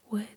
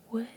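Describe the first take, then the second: Both takes have the same delivery.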